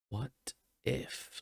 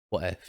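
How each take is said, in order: First: It is said slowly, really pondering. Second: It is said plainly, without pondering.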